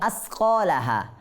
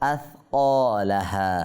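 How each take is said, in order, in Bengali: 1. ব্যঞ্জনটি একটি হিসহিসে 's' ধ্বনি। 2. ব্যঞ্জনটি একটি নরম 'th' ধ্বনি। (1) "আসকালাহা বললে সা থেকে হয়ে গিয়েছে সিন।" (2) "এই জিব্বার আগাটা দাঁতের আগার মধ্যে লাগাবো, তারপর সা উচ্চারণ করবো।"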